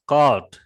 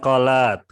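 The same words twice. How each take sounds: First: It is said as one syllable, like cold. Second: It is said with two syllables, like kolak. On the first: The speaker calls it right. "Ini dibaca cold ya" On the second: The speaker calls it wrong. "Bukan called, ... bukan kolak"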